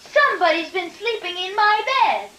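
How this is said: It is said in a tiny voice.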